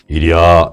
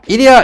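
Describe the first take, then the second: First: It is said in a deep, grown-up voice. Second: It is said in a high, childlike voice. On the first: The ox obeys the command and moves. The speaker calls it right. "이래야 갑니다" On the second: The ox ignores the command and does not move. The speaker calls it wrong. "어린아이 목소리로"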